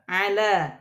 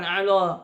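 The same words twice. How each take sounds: First: The L is thin and light. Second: The L is thick and heavy. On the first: The speaker calls it right. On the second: The speaker calls it wrong. "bukan ala"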